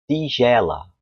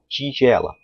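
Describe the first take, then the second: First: The t is said as plain t. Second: The t is said like ch. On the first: "quem mora no Nordeste ... ele vai falar tigela" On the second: "falo tigela"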